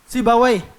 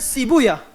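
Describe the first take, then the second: First: The name ends with a 'wai' sound. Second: The name ends with a 'ya' sound.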